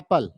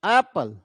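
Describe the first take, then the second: First: Both syllables are given equal weight. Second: The first syllable is stressed more strongly. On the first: The speaker calls it wrong. "हम लोग सारे चीजों को एक जैसे ही पढ़ देते हैं" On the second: The speaker calls it right. "हम ऐप ऐप पे जो है ज्यादा जोर देते हैं।"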